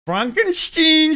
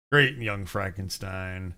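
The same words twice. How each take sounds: First: "Frankenstein" said "Fronkensteen", higher and slow; slow, higher mock "Fronkensteen" from the film; film-quote pronunciation. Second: Said in the usual way. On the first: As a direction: say "Frankenstein" as "Fronk-en-steen" like the movie. Quoting the film's own pronunciation.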